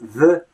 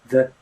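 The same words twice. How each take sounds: First: The first sound is a clear th. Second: The first sound is closer to a soft d. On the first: "the th, the voiced sound" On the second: "becomes more like the. It's something like the d sound"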